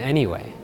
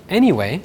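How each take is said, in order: First: The pitch falls on the word. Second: The pitch stays level or rises on the word. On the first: Something does not change the outcome. "the intonation goes down" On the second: The topic is being changed. "it often has an upward or flat intonation"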